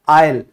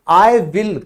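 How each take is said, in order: First: The words merge into one short syllable. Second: Both words are said fully and separately. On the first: The speaker calls it right. "ये बोला जाता है आयल" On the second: The speaker calls it wrong. "कभी भी आई विल नहीं बोला जाता"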